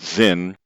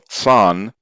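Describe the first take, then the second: First: The name is said in the common English way. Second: The name is said in an uncommon, original-sounding way. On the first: The speaker calls it wrong. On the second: The speaker calls it right.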